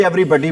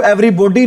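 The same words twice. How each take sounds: First: Said in the usual way. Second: Everybody with a round O, "every-BO-dee"; everybody mispronounced as "every-bodee", long O; wrong pronunciation demo. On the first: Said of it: "everybody बोलते हैं". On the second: Shown as a demonstration. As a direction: say everybody with "bo" in place of "buh". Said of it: "इसको everybody नहीं बोलते".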